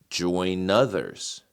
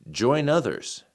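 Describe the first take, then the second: First: It is said at a medium speed. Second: It is said at a fast speed.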